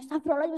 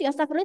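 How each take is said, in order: First: It is said calmly, without anger. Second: It is said angrily, with emotion.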